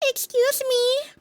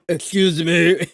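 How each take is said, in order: First: It is in the character's voice. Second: It is not in the character's voice.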